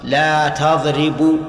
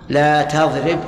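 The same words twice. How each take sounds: First: The verb ends in a vowel. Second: The verb ends in a bare consonant. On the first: The verb is treated as not affected by the prohibitive particle. The speaker calls it wrong. "ها؟ خطأ" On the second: The verb is in the jussive mood after the prohibitive particle. The speaker calls it right. "صح صح، لأن لا ناهية فتجزم الفعل المضارع"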